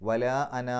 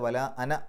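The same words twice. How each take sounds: First: The final vowel of ana is lengthened. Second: The final vowel of ana is kept short. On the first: The speaker calls it right. "അവിടെ നിർത്തേണ്ടി വന്നാൽ" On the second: The speaker calls it wrong. "അല്ലാതെ വല അന എന്നല്ല"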